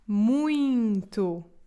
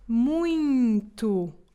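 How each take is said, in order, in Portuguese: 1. O meio diz-se com som nasal. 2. O meio diz-se com som nasal.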